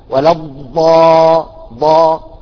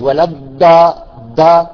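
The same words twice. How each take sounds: First: The dad is mixed with a nasal sound. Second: The dad sounds halfway toward a d sound. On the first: "ممزوجة بالغنة" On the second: "قريبة بين الضاد وبين الضاد والدال"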